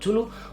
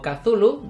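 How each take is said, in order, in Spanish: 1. El nombre se dice con sonidos de estilo español. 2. El nombre se dice con sonidos de estilo inglés. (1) "si lo quieres llamar Chulú, pues llámalo Chulú" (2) "Yo digo Cthulhu debido a que es como se pronuncia en inglés"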